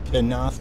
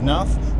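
First: The name starts with a pronounced P sound. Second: The name starts with an N sound, no P. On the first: The speaker calls it wrong. "It's not Pinoth like a lot of people say" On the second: The speaker calls it right. "I said that right"

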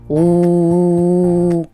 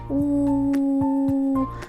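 First: The sound is said loudly. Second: The sound is said quietly. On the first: "говори голосно" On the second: "говори звук У тихо"

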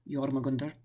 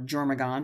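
First: The name ends with an -under sound. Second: The name ends with a plain -and sound. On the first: The speaker calls it right. "It's Jormagunder" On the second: The speaker calls it wrong. "it looks like Jormagand"

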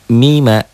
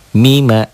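No difference in how they are said.

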